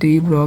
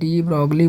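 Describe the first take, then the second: First: The name ends with a 'g' sound. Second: The name ends with a 'glee' sound. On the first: This is how it should be said. The speaker calls it right. "डी ब्रॉग इसको बोलना चाहिए" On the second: This is how people commonly say it. The speaker calls it wrong. "De ब्रॉगली बोलते हैं हम लोग"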